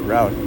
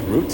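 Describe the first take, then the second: First: The word has an American pronunciation. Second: The word has a British pronunciation. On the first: "with the American pronunciation. I'm pretty sure it's like route" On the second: "in British pronunciation, it's like root"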